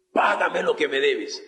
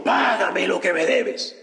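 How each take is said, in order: First: Said in the usual way. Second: Throttle him with the words; a creditor shouting at his debtor; angry demand. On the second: Acted. Cruel servant demands payment.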